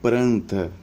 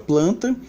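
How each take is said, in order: First: The second consonant is an R sound. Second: The second consonant is an L sound. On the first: "em alguns ambientes é pronunciada como pranta" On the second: "nós temos a palavra planta"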